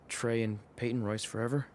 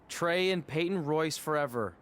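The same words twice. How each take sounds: First: It is said quietly. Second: It is said loudly.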